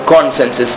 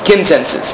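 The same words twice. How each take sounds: First: The first syllable does not sound like kin. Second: The first syllable sounds like kin. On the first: The speaker calls it wrong. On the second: The speaker calls it right.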